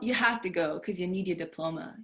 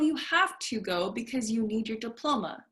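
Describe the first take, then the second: First: Words are reduced and linked together casually. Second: Every word is pronounced fully and carefully. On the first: This is how one speaks in a casual setting. "if I'm outside" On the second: This is how one speaks in a formal setting. "If I say it correctly, like I'm in school"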